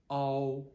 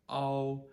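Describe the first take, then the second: No difference in how they are said.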